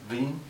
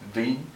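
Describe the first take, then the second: First: The first sound blends V and W together. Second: The word starts with a clear V sound. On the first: The speaker calls it right. "It's actually a mix between two of ving" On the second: The speaker calls it wrong. "If you pronounce it as a straight V, well, that's incorrect"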